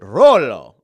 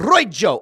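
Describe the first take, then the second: First: The middle consonant is an L sound. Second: The middle consonant is a Y sound. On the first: "Is it an L sound?" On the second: "Is it a Y sound?"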